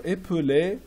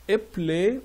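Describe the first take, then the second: First: "épeler" in three syllables, middle e sounded; full pronunciation. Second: "Épeler" in two syllables, middle e dropped; contracted pronunciation. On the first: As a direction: say "épeler" as é-pe-ler. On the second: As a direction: say "Épeler" as ép-ler. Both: Shown as a demonstration. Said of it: "Épeler or épeler".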